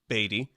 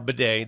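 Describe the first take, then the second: First: The name is said like 'Beatty'. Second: The name is said like 'Bidet'. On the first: This is how the name used to be said. "formerly Beatty" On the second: This is how the name is said now. "It's now Bidet. That is the proper pronunciation"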